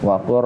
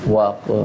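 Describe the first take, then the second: First: The word ends with an R sound, not L. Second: The word ends with an L sound, not R. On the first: The speaker calls it right. "yang kita bunyikan lamnya hilang, masuk ke huruf ra" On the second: The speaker calls it wrong. "saya masih kadang suka dengar yang baca begini nih"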